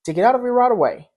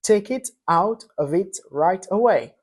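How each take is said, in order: First: The words run together with linked sounds. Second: The words are said separately, without linking. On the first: This is how an American would read it. "un Américain lirait cela" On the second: This is how a French speaker would read it. "Si je te demandais de me lire cette phrase, tu me diras"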